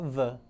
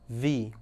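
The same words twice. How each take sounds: First: The word ends in a short 'uh' vowel. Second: The word ends in a long 'ee' vowel. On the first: The next word starts with a consonant sound. "se a próxima palavra for uma consoante, começar com consoante, ou som de consoante, nós vamos falar the" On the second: The next word starts with a vowel sound. "Se a próxima palavra começar com, uma, com som de vogal, a tendência é que nós usamos o som de the"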